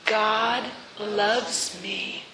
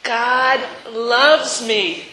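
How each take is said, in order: First: Each word drawn out, hushed; slow and soft. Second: Drawn out and louder, proclaiming; slow and loud. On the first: Preacher leading the church in a slow, soft affirmation. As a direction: savor it slowly and gently. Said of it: "Let's say it again". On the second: Preacher leading the final affirmation, slow and ringing. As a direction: declare it slowly with full force. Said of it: "One more time". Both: Shown as a demonstration.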